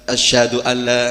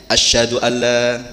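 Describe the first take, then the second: No difference in how they are said.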